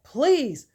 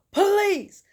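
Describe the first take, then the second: First: Higher, louder acted begging; first firm, impatient appeal; raised-voice frustrated request; exasperated plea. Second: Very high, loud begging; escalated, exasperated mock shout; desperate yelled plea. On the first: Kendrick pleads with his dad, escalating. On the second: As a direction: cry out at the end of patience. Kendrick pleads again, more forcefully.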